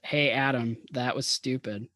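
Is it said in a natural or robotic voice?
natural. It is said in a natural voice.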